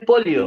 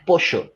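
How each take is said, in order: First: The double L sounds like an L sound. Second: The double L sounds like a Y sound. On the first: The speaker calls it wrong. "acá no es polio" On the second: The speaker calls it right. "acá es pollo"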